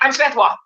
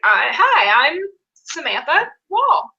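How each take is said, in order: First: The name is run together without pauses. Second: There are pauses before the first and last names.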